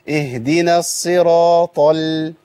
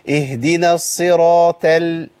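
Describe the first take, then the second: First: The heavy quality is held until the l. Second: The mouth opens and lightens right after the t. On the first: The speaker calls it right. "بص حضرتك كده" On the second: The speaker calls it wrong. "حضرتك بتيجي عند الطاء وتقوم جاي عامل انفتاح"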